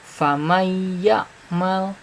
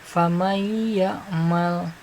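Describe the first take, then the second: Both takes have the same delivery.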